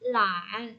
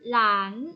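First: The pitch dips low and then rises. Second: The pitch rises from mid to high.

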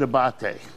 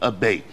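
First: The name is pronounced the Italian way. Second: The name is pronounced the English way. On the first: This is how the family and restaurant say it. "So we pronounce it abate" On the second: This is the anglicized way of saying it. "the English pronunciation would be abate"

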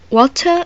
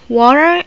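First: It is said with a British accent. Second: It is said with an American accent. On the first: "it pronounced water in British" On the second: "this is water in America"

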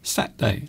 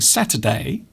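First: The word is said with a syllable dropped. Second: The word is said with all its syllables. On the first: "People will say Saturday" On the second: "instead of saying Saturday"

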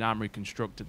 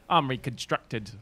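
First: It is said in the speaker's ordinary voice. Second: It is said in an altered, put-on voice. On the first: It is plain everyday speech. "instead of me saying armory constructed like that" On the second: It is game commentary. "in a little bit of a different voice compared to my normal one"

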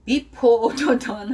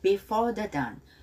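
First: The stress is on the first syllable of before. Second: The stress is on the second syllable of before. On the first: The speaker calls it wrong. "Before the Dawn 하면 안 돼요" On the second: The speaker calls it right. "Before는 4의 액센트가 있어요"

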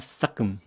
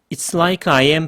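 First: The words are squeezed into two quick syllables. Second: Every word is said fully and separately.

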